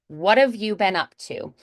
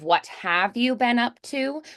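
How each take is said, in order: First: The words 'what' and 'have' run together smoothly. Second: The words 'what' and 'have' are said separately. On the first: "you hear how we are linking those two words together" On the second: "Instead of what have you been up to"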